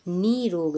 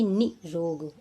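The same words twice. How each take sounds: First: निरोग with a long "nee"; correct long-vowel demo. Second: निरोग with a short "ni", then slow "rog"; short first vowel in निरोग; wrong short-vowel demo. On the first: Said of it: "बड़ी की मात्रा". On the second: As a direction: clip only the i in निरोग. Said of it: "ना कि निरोग". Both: Shown as a demonstration.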